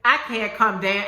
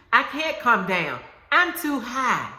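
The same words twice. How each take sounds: First: Said in the usual way. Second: Sassy, defiant declaration, higher on high; with an attitude. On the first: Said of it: "I want you to say it". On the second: Shown as a demonstration. Preacher leading the congregation, defiant attitude. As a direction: say it like you mean it, with sass. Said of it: "say it with an attitude".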